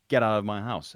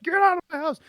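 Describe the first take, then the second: First: It is said in a flat, samey way. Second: It is said with extra energy and punch.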